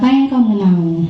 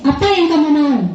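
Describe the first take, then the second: First: It is said in a calm, managing tone. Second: It is said in a punishing, scolding tone. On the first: The adult acts as a manager. The speaker calls it right. "Nah kalau manajer" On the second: The adult acts as a punisher. The speaker calls it wrong. "Itu ke penghukum"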